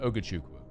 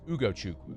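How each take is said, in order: First: The first and third vowels are swapped. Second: The vowels are in their usual order. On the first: The speaker calls it wrong. "You flipped the first and the third letters" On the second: The speaker calls it right. "It's Ugochukwu"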